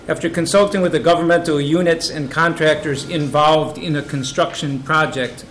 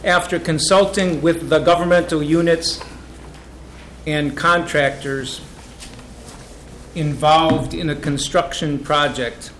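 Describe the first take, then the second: First: The phrase is read at a fast pace. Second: The phrase is read at a slow pace. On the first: "I'll read it fast and slow" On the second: "I can read that slower"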